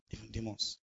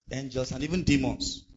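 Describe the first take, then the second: First: Low, much softer echo; hushed repeat. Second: Said in the usual way. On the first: Real, not acted. Preacher warns listeners who else is listening, hushed. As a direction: drop it to a grave aside.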